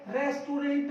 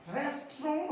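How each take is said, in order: First: रेस्टोरेंट spelt out, "res-tu-rent"; mispronounced रेस्टोरेंट. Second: रेस्टोरेंट in two syllables, "res-tron"; correct रेस्टोरेंट. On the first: Teacher rejecting the common form, रेस्टोरेंट as "res-tu-rent". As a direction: sound the final t of रेस्टोरेंट: "resturent". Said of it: "रेस्टोरेंट नहीं होता". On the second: Teacher giving the right form, रेस्टोरेंट as "res-tron". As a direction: end रेस्टोरेंट on "tron", no final t. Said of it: "रेस्टोरेंट होता है". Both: Shown as a demonstration.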